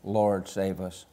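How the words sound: It is said calmly, like a light tap.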